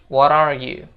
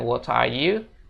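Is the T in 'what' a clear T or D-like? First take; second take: D-like; clear T. First: The T in what sounds like a D. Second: The T in what is a clear T. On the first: The speaker calls it right. "T itu jadi seolah-olah huruf D" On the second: The speaker calls it wrong. "bukan what are you"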